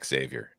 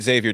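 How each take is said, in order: First: The name begins with a ks sound. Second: The name begins with a plain z sound. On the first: The speaker calls it wrong. "I always hear people saying it Xavier" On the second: The speaker calls it right. "I say it Xavier too"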